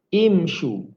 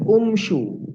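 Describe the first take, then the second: First: The word begins with an i vowel. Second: The word begins with a u vowel. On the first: The speaker calls it right. "kita kena mulakan dengan baris bawah" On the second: The speaker calls it wrong. "tidak dibaca umshu"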